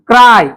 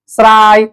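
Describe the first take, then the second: First: The word begins with a k sound. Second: The word begins with an s sound. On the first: The speaker calls it right. "क चा उच्चार होतोय" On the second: The speaker calls it wrong. "असे वाचू नका"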